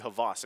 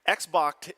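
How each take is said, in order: First: The name begins with an 'h' sound. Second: The name begins with an 'eks' sound. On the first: This is how the player himself says the name. "it's actually Havas" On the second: This is how the name looks when read at face value. "how it looks face value"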